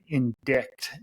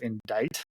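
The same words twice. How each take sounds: First: The word is pronounced the way it is spelled. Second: The word is pronounced the standard spoken way. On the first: The word was only known from reading. The speaker calls it wrong. "I said indict instead of" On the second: The word is said the usual spoken way. The speaker calls it right. "instead of indict"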